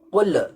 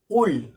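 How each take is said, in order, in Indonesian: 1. Huruf l di akhir berakhir dengan tambahan membal. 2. Huruf l di akhir berakhir dengan bersih, tanpa membal. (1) "tapi dibaca dengan qul" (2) "Seharusnya cukup dengan qul"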